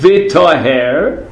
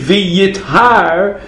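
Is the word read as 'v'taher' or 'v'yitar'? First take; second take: v'taher; v'yitar. First: The word is read with a 'taher' ending. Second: The word is read with a 'yitar' ending. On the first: Something became pure. "You could read it V'taher, in which case it means it became pure" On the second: Someone will become pure. "or you could read it V'yitar, and then what it means is it will become pure"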